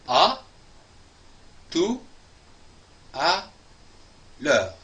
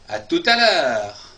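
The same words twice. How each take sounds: First: Each word is said separately with pauses. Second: The words run together with a linking t.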